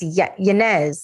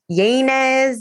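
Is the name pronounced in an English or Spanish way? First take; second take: Spanish; English. First: The name is pronounced with Spanish sounds. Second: The name is pronounced with English sounds. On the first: The speaker calls it right. "literally don't say it this way, but it's Yanez" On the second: The speaker calls it wrong. "when people anglicize my name"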